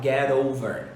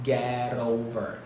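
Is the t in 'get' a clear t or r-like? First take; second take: r-like; r-like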